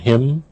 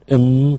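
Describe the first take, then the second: First: The word starts with a clear h sound. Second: The word starts without an h sound.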